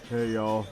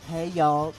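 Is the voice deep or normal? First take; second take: deep; normal. First: It is said in a deep voice. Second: It is said in a normal voice. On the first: "he would say this in a deep voice" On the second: "Instead of like"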